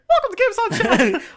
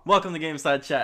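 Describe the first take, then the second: First: It is said in a Mickey Mouse voice. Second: It is said in his normal voice.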